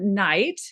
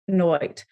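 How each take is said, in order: First: It has the modern 'eye' vowel. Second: It has an 'oy' vowel sound. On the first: This is the modern pronunciation. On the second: This is the pronunciation in Shakespeare's time.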